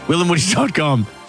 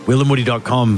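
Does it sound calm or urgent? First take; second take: urgent; calm. First: It is said in an urgent, pressing way. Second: It is said in a calm, casual way.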